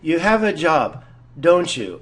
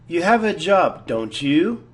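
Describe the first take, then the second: First: The voice falls on the tag. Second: The voice rises on the tag.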